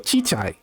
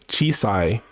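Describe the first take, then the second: First: The middle consonant is a ch sound. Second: The middle consonant is a clear s sound. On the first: "they can't make the sa sound, so ... they go chichai" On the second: "when they say small instead of chisai"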